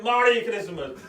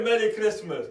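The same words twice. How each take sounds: First: "Merry" pronounced "Mari", open a; altered "Mari" pronunciation. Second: Said in the usual way. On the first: Retold or imitated. Replying to a greeter in the queue, "Merry" twisted into "Mari". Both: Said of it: "Mari meaning bad".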